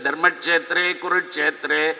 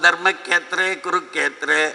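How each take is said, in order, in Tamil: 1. இந்தக் கூட்டு தெளிவான 'ksh' ஒலியுடன் சொல்லப்படுகிறது. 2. இந்தக் கூட்டு இரட்டை 'kk' ஒலியாகச் சொல்லப்படுகிறது. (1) "ரொம்ப அழகா சொல்லுவோம் நம்ம" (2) "அவன்"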